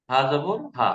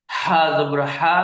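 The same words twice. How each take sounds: First: Said in the usual way. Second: হা জবর হা drawn out slowly, a little louder; slow drawn recitation. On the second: Shown as a demonstration. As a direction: stretch হা জবর হা for the students. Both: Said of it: "যেমন".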